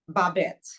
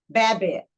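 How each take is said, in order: First: The name is said with French pronunciation. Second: The name is said with anglicized pronunciation. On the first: This is the name as it was meant to be. The speaker calls it right. "she named me Babette" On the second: This is how the mother actually said it. The speaker calls it wrong. "but she pronounced it Babette"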